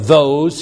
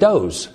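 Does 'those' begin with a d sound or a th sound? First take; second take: th sound; d sound. First: The word begins with a th sound. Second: The word begins with a d sound. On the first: "you don't say them or those" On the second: "You say them and those"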